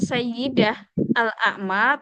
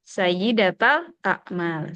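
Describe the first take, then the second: First: The first word ends without a vowel. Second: The first word ends in 'ta' linking forward. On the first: The speaker calls it wrong. "walaupun kita bisa sukunkan ... tapi itu tidak fasih" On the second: The speaker calls it right. "Sebaiknya lebih fasih"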